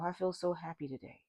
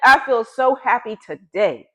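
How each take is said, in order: First: It is said flatly, without real happiness. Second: It is said with lively, genuine happiness. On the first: The words carry no real feeling. The speaker calls it wrong. "Does that really sound happy?" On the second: The speaker truly feels very happy. The speaker calls it right. "That is you feeling very happy today"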